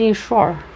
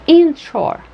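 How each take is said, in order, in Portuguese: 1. A primeira sílaba não tem acento secundário. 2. A primeira sílaba tem acento secundário; a segunda tem o principal. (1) "Nós temos a tendência de dizer inshore" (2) "E é inshore"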